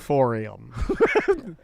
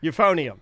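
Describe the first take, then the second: First: The third syllable starts with an r sound. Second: The third syllable starts with an n sound. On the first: The speaker calls it wrong. "not the euphorium" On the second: The speaker calls it right. "It's the euphonium"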